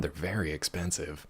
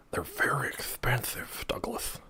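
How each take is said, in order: First: Said in the usual way. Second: Slow secretive whisper. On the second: Acted. Repeats line then whispers it.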